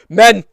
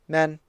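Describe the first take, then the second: First: The word is shouted loudly and projected. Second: The word is said quietly and timidly. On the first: The speaker calls it right. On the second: The speaker calls it wrong.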